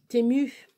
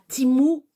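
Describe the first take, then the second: First: The first vowel sounds like 'eh'. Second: The first vowel sounds like 'ee'.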